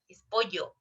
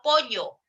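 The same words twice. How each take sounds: First: "pollo" with a true palatal ll; proper ll sound. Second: "pollo" with the ll said like a y; yeísta pollo. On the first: Teacher models the correct doble L. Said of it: "doble L". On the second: Teacher shows the common coastal yeísmo. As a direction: say "pollo" as "poyo". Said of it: "no es pollo". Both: Shown as a demonstration.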